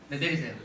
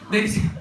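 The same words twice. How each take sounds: First: Said in the usual way. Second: Giggling through the instruction; laughing. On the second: Real, not acted. Laughing while telling hands down.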